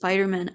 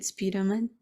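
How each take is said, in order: First: The first vowel sounds like 'eye'. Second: The first vowel sounds like 'ee'. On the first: "E instead of I ... instead of Spiderman" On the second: "I said E ... I said Spiderman"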